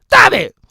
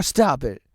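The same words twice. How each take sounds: First: Loud mock echo. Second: Said in the usual way. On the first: Shown as a demonstration. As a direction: Stop it echoed back higher and louder.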